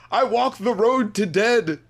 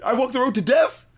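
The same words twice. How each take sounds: First: Slow, higher "road to dead"; mocking the phrasing. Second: Higher, rising "death?"; questioning correction. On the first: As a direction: draw out "to dead" as the oddity. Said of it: "Why is she saying that?". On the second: Retold or imitated. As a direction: offer "death" as a baffled question. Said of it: "The death?".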